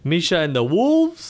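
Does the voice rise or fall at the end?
fall. The voice falls at the end, like an exclamation.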